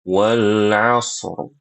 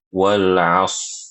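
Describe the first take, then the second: First: The final r sound is clearly trilled. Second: The final r sound is dropped. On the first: The speaker calls it right. "harus didatangkan si, apa huruf huruf ro-nya" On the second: The speaker calls it wrong. "ro-nya tidak dibaca"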